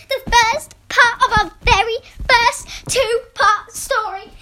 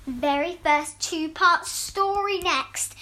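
First: Higher, louder, thrilled; excited. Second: Slow, careful read; slow read aloud. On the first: Real, not acted. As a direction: announce it with real excitement. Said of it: "how excited I am". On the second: Shown as a demonstration. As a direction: read it out slowly. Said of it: "I left an extra tag saying".

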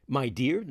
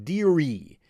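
First: Said in the usual way. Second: Sarcastic dearie. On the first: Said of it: "sie sagt nicht my dear". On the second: Shown as a demonstration. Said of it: "ein bisschen sarkastisch gemeint".

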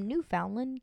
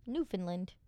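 First: Newfoundland with "found" as in found; Newfoundland said new-FOUND-land, middle like "found"; first try. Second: Newfoundland said NEW-fin-land, middle swallowed; Newfoundland with a short "fin" in the middle; corrected try. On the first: Real, not acted. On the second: Shown as a demonstration. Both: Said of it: "That's how, that's how you say that?".

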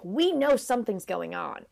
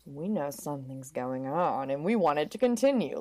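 First: Mild mock accusation; lightly pointed, calling them out; knowing disapproval. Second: Hushed, in on the secret; conspiratorial approval. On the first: Garden ornaments are onto the secret lovers, mild disapproval. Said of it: "either are like". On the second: Acted. Garden ornaments secretly back the lovers, low conspiratorial voice. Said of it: "or they're like".

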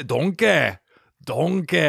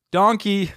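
First: Loud "Donkey" standing in for "danke"; hammed-up "Donkey" as thanks; mock German thanks. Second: "Donkey" loud and high, like a joke "danke"; shouted "Donkey" for German thanks; mock German thanks. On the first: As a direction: repeat "Donkey" as joke German. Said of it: "I'm pretty sure that's German". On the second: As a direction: bark "Donkey" as fake German. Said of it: "German, whatever they say".

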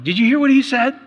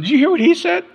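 First: High, loud mock-outraged question; indignant husband quoting counselor. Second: Very high, loud mimicked retort; indignant wife retorting. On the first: Husband fighting with wife after counseling, indignant. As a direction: throw it at your wife, voice climbing. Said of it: "'cause I was going". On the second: Husband mimicking wife's comeback after counseling, indignant. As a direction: imitate a wife firing back, pitched way up. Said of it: "And she's going".

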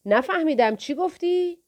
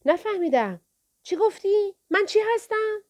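First: Put-on a thug taunting the boy as if deaf; mock deafness. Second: Much higher, sing-song "چی گفتی"; a thug mocking the boy, hand to ear; bigger mock deafness. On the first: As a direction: pretend not to hear, teasing. Thug mocks, feigning deafness. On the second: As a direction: push the taunt further up.

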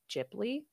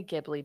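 First: Ghibli said as "Jibli"; soft G. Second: Ghibli with G as in go; hard G. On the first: Explaining the supposedly official name, Ghibli with J sound. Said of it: "it is supposed to be". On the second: Explaining own preferred way, Ghibli with hard G. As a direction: start Ghibli with a hard "guh". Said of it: "I say Ghibli because". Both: Shown as a demonstration.

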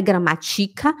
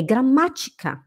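First: "gramática" as grama-TI-ca; "gramática" stressed on the next-to-last syllable; wrong stress. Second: "gramática" as gra-MÁ-tica; "gramática" stressed third from the end; correct stress. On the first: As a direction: move the accent of "gramática" onto TI. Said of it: "não é gramática". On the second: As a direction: hit MÁ in "gramática". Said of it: "é gramática". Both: Shown as a demonstration.

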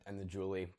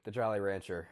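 First: "Julie" said as joo-lee, a slip for Jolly; tongue slips into "Julie" instead of Jolly; mispronounced slip. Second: Said in the usual way. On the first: Real, not acted.

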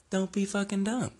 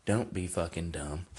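First: Pitched much higher, mocking; high-pitched repeat. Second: Said in the usual way. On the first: Warning Mayweather off MMA again, in a much higher mocking voice. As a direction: jump the voice way up in disbelief. Scolding a boxer.

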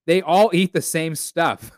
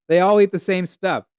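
First: Said in the usual way. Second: Louder and higher, hammering the point home; emphatic repeat. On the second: Real, not acted. Repeating the joke to listeners, louder and emphatic. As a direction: say it again, punching "eat".

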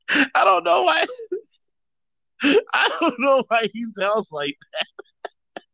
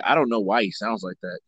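First: High, drawn-out silly voice; goofy high-pitched voice; silly character voice. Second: Low, quiet brother; the brother's voice. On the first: Pretend. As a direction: stretch it out high, on the edge of laughter. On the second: Acted. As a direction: answer low as the embarrassed brother. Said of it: "His brother's like".

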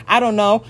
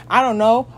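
The two takes are said the same way.

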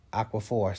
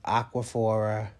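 First: Aquaphor said with no vowel after the r; corrected. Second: Aquaphora said with an extra a sound at the end; mispronounced. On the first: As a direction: fix it to Aquaphor, ending cleanly on the r. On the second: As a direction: slip into Aquaphora, adding a final a. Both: Real, not acted.

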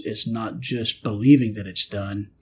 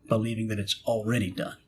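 First: Said in the usual way. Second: Already picked out from the phrase; stress on already. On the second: Shown as a demonstration. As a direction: make already the key word.

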